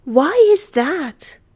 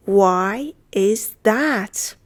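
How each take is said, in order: First: Said in the usual way. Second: Very slow, each word separated; deliberate language-lesson pace; slow model repeat. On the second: Shown as a demonstration. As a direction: say it one word at a time. Teacher repeats phrase slowly.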